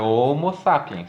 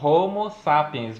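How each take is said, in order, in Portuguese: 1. O h no início é mudo. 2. O h no início é pronunciado. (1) "aquele H não é pronunciado" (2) "senão nós teríamos que falar Homo sapiens"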